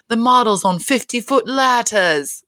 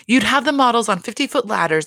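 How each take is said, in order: First: Slow mock-grand accent, r dropped in ladders; put-on accent, higher, drawing out fifty-foot ladders; Dorit's accent. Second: Said in the usual way. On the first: Podcaster quoting a housewife's warehouse plan, put-on accent. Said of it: "Dorit is talking about how".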